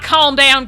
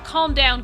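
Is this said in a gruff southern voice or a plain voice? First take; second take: gruff southern; plain. First: It is said in a gruff southern voice. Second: It is said in a plain, normal voice.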